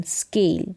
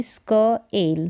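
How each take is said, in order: First: Said in the usual way. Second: स्क एल split by a pause; two separate parts, स्क and एल; sounded out. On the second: Shown as a demonstration. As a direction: say स्क, wait, then एल. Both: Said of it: "इसको pronounce करेंगे स्क".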